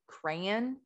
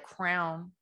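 First: It is said in a general American accent. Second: It is said in a Southern US accent.

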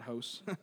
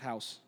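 First: The word is said in a Canadian accent. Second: The word is said in a plain accent. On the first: The speaker calls it wrong. "not house. We're not in Canada" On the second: The speaker calls it right. "In preacher's house"

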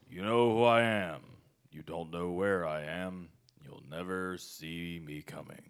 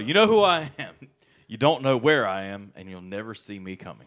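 First: It is said in a Mandarin villain voice. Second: It is said in his normal voice.

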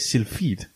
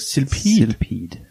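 First: The ph is pronounced as an f sound. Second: The p and h are split across syllables. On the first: "we pronounce the PH as f-f. So we're inclined to say Sylphid" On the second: "it might just be two separate like syllables. So Sylphid"

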